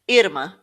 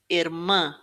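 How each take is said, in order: First: The stress is on the first syllable. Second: The stress is on the last syllable. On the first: The speaker calls it wrong. "it's not irmã" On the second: The speaker calls it right. "the m is stressed at the end"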